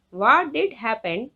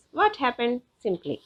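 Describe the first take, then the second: First: What DID happen, did pushed hard; stress on DID. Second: Said in the usual way. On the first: Shown as a demonstration. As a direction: lean on the word did. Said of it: "it emphasizes the question with stress". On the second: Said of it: "Means what happened simply".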